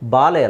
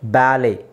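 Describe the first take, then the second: First: The first vowel is an open 'ah' sound. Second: The first vowel is like 'a' in 'cat'. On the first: The speaker calls it wrong. "ಬಾಲೆ ಅಲ್ಲ" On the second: The speaker calls it right. "ಇಲ್ಲಿ T is silent"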